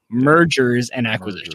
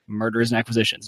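First: The first word is clearly enunciated as 'mergers'. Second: The first word sounds like 'murders'. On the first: The speaker calls it right. "I've got to really enunciate my mergers" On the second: The speaker calls it wrong. "it sounded like murders"

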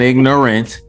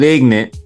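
First: The word is said in full, three syllables. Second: The word is clipped to two syllables, ignant. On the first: It means lacking knowledge. "not ignorant" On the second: It means acting rowdy and out of control. "but ignorant. / There was I-G-N-A-N-T"

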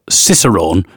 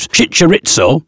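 First: The word begins with an 's' sound. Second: The word begins with a 'ch' sound. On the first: This is how the word is actually pronounced. The speaker calls it right. "as it actually is" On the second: This is how a screen reader mispronounces it. The speaker calls it wrong. "my screen reader is pronouncing it Chincharitzo"

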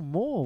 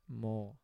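First: It sounds happy and enthusiastic. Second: It sounds exasperated and fed up.

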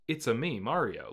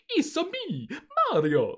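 First: It is a flat, toned-down Mario voice. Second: It is an exaggerated, cartoonish Mario voice.

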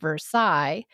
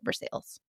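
First: It is said the French way. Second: It is said with Indiana twang.

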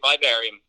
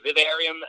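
First: It is said the American way. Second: It is said the British and Irish way. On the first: "in the States, people say Vivarium" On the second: "in the UK, in Ireland, people say Vivarium"

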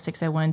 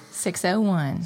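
First: It is said at a quicker pace. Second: It is said at a slower pace.

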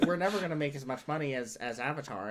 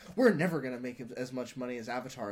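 First: It is said in an imitated, put-on voice. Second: It is said in the speaker's ordinary voice.

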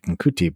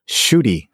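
First: The name begins with an 'nk' sound. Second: The name begins with a 'sh' sound. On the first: The speaker calls it wrong. "I always thought it was like Nkuti" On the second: The speaker calls it right. "but it's"

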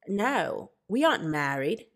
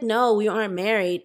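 First: It is spoken in an imitated Australian accent. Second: It is spoken in the speaker's natural accent. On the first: "I know my Australian accent was bad" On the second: "Let me just talk regular"

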